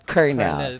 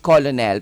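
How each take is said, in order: First: It is said like 'kernel', with an r sound. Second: It is said letter by letter, as spelled. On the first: The speaker calls it right. "pronounce niyan dapat colonel" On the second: The speaker calls it wrong. "sa spelling nun"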